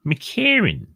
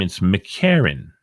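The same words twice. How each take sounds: First: McCarran said higher, lilting; raised McCarran. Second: Said in the usual way. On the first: Shown as a demonstration. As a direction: sing out McCarran high.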